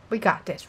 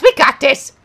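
First: Softer, unsure; muttered self-reassurance; quiet. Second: Louder, pumped up; rally the viewers; hyped self-encouragement. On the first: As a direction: say it to yourself, doubting. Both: Real, not acted.

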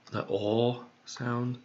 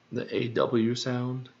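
First: "aw" held open and drawn out, as in "pawn"; aw sound. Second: Said in the usual way. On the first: Shown as a demonstration. Hunting for rhymes, slowly sounds out "aw" as in "pawn". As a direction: stretch the vowel of "aw" slowly, like in "pawn".

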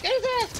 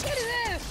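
First: Very high, loud battle yell; excited shout. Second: High, loud yell repeated; excited shout. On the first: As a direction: scream it at your teammate. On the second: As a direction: keep screaming it. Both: Real, not acted. Calling out in firefight.

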